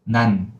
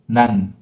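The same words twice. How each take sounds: No difference in how they are said.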